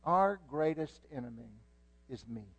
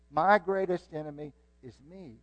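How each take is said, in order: First: Said in the usual way. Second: "My" hit louder at the start; stress on MY. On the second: Shown as a demonstration. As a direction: punch "My greatest enemy is me". Repeats with stress on my.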